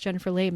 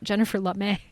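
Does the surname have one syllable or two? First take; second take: one; two. First: The surname is said as one syllable. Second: The surname is said as two syllables. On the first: The speaker calls it right. "her name is pronounced Jennifer Lame" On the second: The speaker calls it wrong. "not Jennifer Lamé, which is how I've been pronouncing it"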